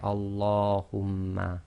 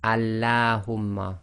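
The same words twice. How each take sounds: First: The L is heavy, said with a full mouth. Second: The L is light, said with a thin sound. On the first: The speaker calls it right. "lam is not pronounced normally as taraqiq" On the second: The speaker calls it wrong. "you can't say"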